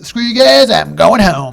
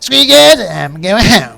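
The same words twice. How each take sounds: First: It is said in his normal voice. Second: It is said in a Cartman impression.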